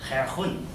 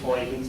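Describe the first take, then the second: First: The name is said with a Dutch pronunciation. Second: The name is said with an English pronunciation. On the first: "I'm going to do my best pronunciation" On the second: "I'm going to use Huygens because I think that's perfectly good"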